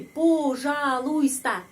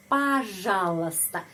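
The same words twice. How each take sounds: First: Пожалуйста read slowly letter by letter. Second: Пожалуйста said as pazhalusta, unstressed o as a; rule-based pronunciation. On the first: Teacher reading пожалуйста letter by letter, slowly. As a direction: sound out every letter of пожалуйста. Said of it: "huruf per huruf jadi begini". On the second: Teacher showing the real pronunciation of пожалуйста. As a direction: say пожалуйста the natural way, slowly. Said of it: "peraturan untuk pengucapan". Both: Shown as a demonstration.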